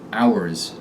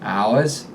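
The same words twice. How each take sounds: First: The final R is clear; pitch falls. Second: The final R is dropped; pitch rises. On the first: "In the standard American accent, R endings are clearly articulated and descend in pitch" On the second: "when you're speaking with a Boston accent, final R's vanish"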